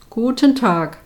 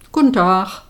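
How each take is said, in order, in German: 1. Es wird in standarddeutscher Aussprache gesprochen. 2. Es wird in einem pfälzischen Regionaldialekt gesprochen. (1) "Due en la norma germana, guten tag" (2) "Poste en du regionai dialektoi, la palatinata, guten tag"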